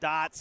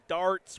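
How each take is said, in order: First: The R sound is dropped. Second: The R sound is clearly pronounced. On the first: The speaker calls it wrong. "not dots" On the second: The speaker calls it right. "with an R"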